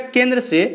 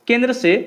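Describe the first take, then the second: No difference in how they are said.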